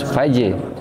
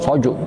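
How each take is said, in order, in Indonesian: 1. Vokalnya terdengar tipis dan terang. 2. Vokalnya terdengar tebal dan gelap. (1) "jadi tipis faje" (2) "bukan bukan foju"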